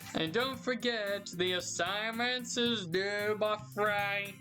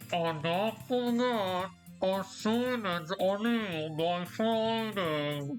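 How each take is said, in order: First: It is said in the speaker's normal voice. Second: It is said in a put-on teacher voice.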